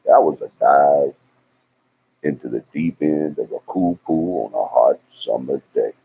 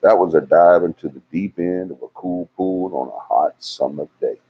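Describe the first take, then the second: First: Little southern accent. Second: Said in the usual way. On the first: Shown as a demonstration. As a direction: lay a touch of Southern accent on it. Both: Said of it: "put that little southern accent in there".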